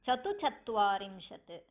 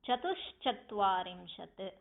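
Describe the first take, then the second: First: There is no s sound after 'chatu'. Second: There is an s sound after 'chatu'. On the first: The speaker calls it wrong. "Some people have the practice of pronouncing it as" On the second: The speaker calls it right. "there is a ish there. So, while pronouncing it, we have to pronounce it as"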